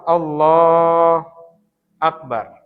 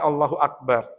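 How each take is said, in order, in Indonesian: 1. Kedua kata itu dipisah. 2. Kedua kata itu disambung dengan lancar. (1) "Atau memisah"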